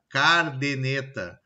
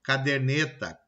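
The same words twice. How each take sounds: First: "cardeneta" slowly, r moved to the first syllable; slow, deliberate "cardeneta" for caderneta; swapped-sound mispronunciation. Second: Said in the usual way. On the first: Shown as a demonstration. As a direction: say "cardeneta" as "CAR-de-neta". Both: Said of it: "troca de posições de um ou mais fonemas".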